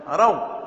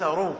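First: "رو" said "raw", fatha on the ر; correct vowel. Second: "رو" said "roo", damma on the ر; mistaken vowel. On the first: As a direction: say "رو" with an aw diphthong. («رو» بفتح الراء) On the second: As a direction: say "رو" with a long oo. («رو» بضم الراء) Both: Shown as a demonstration. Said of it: "وليس رو".

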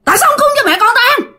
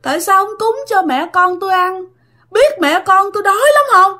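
First: Very high, fast furious shriek; high, fast, loud scolding scream; ghost screaming in rage. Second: High, moaning lament; high, mournful ghostly wail; wailing ghost plea. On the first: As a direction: shriek it at the intruders. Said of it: "Nạt lên, la làng lên các bạn". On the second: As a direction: moan it like a hungry ghost begging. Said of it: "đang khóc". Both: Retold or imitated.

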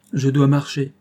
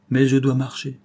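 First: Dois pressed firmer and a touch louder; repeated for emphasis on dois; stress on dois. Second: Said in the usual way. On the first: Acted. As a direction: lean hard on dois in "Je dois marcher".

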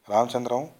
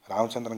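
First: Ramachandram called louder with a rising end; urgent call of Ramachandram to the dying friend. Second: Said in the usual way. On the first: A narrator's reading. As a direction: call Ramachandram out to a man slipping away. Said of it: "అని పిలిచాడు Nagabhushanam". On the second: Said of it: "అని పిలిచాడు".

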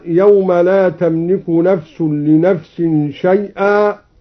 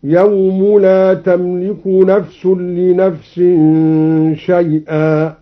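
First: Said in the usual way. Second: يوم stressed with a clear final u, recited slowly; slow recited demo. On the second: Shown as a demonstration. Teacher demonstrating the raised يوم, slow recitation. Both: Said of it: "هكذا".

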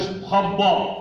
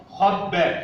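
First: خبأ with dark "bo" ending; wrongly heavy ب. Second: خبأ with dark kha, thin "ba"; heavy خ, light ب. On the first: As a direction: thicken the ب of خبأ too. (خبأ بتفخيم الباء خطأً) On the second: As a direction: keep only the خ of خبأ thick. (خبأ بتفخيم الخاء وترقيق الباء) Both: Shown as a demonstration. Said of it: "خاء مفخمة والباء مرقق".

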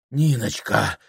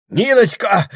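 First: Said in the usual way. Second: High, loud cry; desperate calling. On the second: A narrator's reading. Прохор calling for Ниночка, loud cry. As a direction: call out loudly for help.

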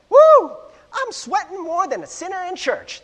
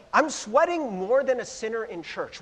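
First: High, loud hammed-up Southern belle; terrible Southern accent with a big high whoop. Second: Said in the usual way. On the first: Pastor imitating a movie belle at a ball, Southern accent. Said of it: "That's my Southern accent".

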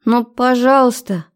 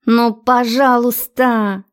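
First: Put-on high begging girl voice; pleading. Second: Slow, drawn-out wheedle; wheedling. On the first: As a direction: beg sweetly, pitched up. Girlfriend begs him to dance. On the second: A narrator's reading. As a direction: stretch the please out coaxingly. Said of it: "клянчила она".

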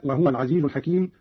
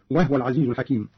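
First: Said in the usual way. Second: وهو said "wahwa" with a vowelless h; silent-vowel ha. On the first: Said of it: "وكذا قوله تعالى". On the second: Shown as a demonstration. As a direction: join وهو into two syllables, "wah-wa". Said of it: "بإسكان الهاء". (إسكان الهاء في وهو)

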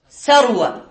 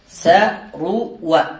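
First: Said in the usual way. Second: ثروى drawn out slowly, each syllable sa-ru-wa apart; slow spelled-out word. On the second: Shown as a demonstration. Teacher models ثروى on its pattern for students, slow and spelled out. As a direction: stretch ثروى out so the class hears every syllable. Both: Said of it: "على وزن فعل".

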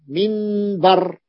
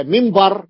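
First: منبر said very slowly as minbar, with a clear n; منبر drawn out, minbar. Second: منبر said as mimbar, with m before b; منبر slow, mimbar. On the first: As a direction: stretch منبر and keep the n. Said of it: "بالنون". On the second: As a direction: say منبر with the n turned to m. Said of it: "عنبر بالميم". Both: Shown as a demonstration.

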